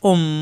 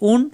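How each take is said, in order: First: The syllable ends with an m sound. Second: The syllable ends with an n sound. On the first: The speaker calls it right. "পড়তে হবে উম" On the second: The speaker calls it wrong. "এখানে আছে উন"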